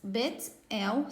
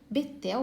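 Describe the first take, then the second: First: The word is split into two separate parts. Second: The word is said joined, without a break.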